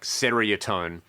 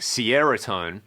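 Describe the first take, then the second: First: It begins with a plain 'seer' sound. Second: It begins like the word 'Sierra'. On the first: "kind of as it's spelt" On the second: "like Sierra Tone"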